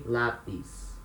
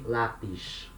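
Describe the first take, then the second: First: The final s sounds like s. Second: The final s sounds like sh.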